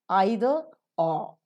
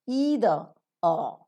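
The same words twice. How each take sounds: First: It uses the British pronunciation. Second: It uses the American pronunciation. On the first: "You'll have to get yourselves acquainted with the R P" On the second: "But the American pronunciation is"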